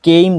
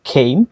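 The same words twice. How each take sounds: First: "কেইম" with plain unaspirated k; common local pronunciation. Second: "খেইম" with aspirated kh; corrected pronunciation. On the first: Teacher shows learners how we usually say it, unaspirated "কেইম". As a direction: say "কেইম" with no puff on the k. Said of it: "আমরা যেটাকে কেইম উচ্চারণ করি". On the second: Teacher corrects the k for learners, aspirated "খেইম". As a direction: puff of air on the first sound of "খেইম". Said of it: "সেটা হবে খেইম". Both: Shown as a demonstration.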